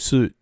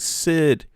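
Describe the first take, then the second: First: The vowel is rounded, closer to 'sood'. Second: The vowel is like the one in 'sit'. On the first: "if it was uh Danish, I would say Sud, like South" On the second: "did I say that right?"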